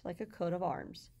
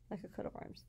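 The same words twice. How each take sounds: First: Said in the usual way. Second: Whispered repeat. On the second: Shown as a demonstration. Teacher whispering the example phrase to students. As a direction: whisper it the second time, unvoiced.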